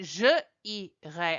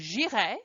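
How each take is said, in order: First: The vowel of je is kept before irai. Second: The vowel of je is dropped before irai. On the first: The speaker calls it wrong. "I wouldn't say je irai" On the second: The speaker calls it right. "I would say j'irai"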